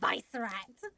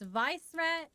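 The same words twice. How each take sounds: First: The name is pronounced the German way. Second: The name is pronounced the plain English way.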